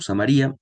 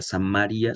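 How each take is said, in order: First: The stress falls on the syllable ri. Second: The stress falls on the syllable ma. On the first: "Yo lo leí como Samaria" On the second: "sin acento en la I"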